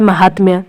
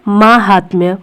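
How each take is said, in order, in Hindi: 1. पहला स्वर छोटा है। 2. पहला स्वर लंबा है। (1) "माँ छोटा रहता है ... बोला भी ऐसे ही जाता है" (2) "माँ बड़ा होता है"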